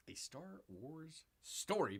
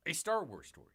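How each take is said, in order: First: Slow, stretched-out mock title read; drawn-out repeat. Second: Said in the usual way. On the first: Host repeating a film subtitle for viewers, drawn-out. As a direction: draw each word out, a little softer.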